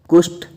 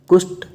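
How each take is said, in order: Both takes have the same delivery.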